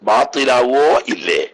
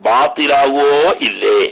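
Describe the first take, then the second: The two takes are said the same way.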